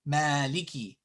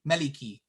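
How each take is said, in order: First: One vowel is clearly lengthened. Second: All the vowels are said short. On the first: The speaker calls it right. "But it is there" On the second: The speaker calls it wrong. "if it wasn't there"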